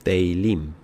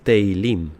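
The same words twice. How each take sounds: The two takes are said the same way.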